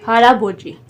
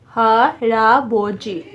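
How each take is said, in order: First: Said in the usual way. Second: हारा बोजी slowly, split ha, ra, bo, ji; teacher breaking हारा बोजी down slowly; syllable by syllable. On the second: Shown as a demonstration. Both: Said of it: "तीन तीन syllable बने हैं".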